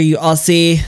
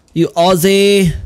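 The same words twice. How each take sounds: First: Said in the usual way. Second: Drawn-out shout of "You Aussie"; shouted insult. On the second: Real, not acted. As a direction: yell "Aussie" slowly after him. Chasing the Aussie NPC.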